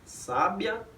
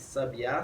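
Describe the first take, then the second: First: The stress is on the first syllable. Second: The stress is on the last syllable. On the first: "é a posição da sílaba tônica" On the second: "é a posição da sílaba tônica"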